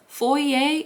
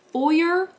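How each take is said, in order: First: "Foyer" as FOY-ay, silent r, questioning; unsure high "Foyer?" ending in an ay sound; French-style pronunciation of foyer. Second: "foyer" as FOY-er, ending in r, questioning; unsure high "foyer?" with a sounded final r; English pronunciation of foyer. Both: Shown as a demonstration. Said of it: "how that word is pronounced".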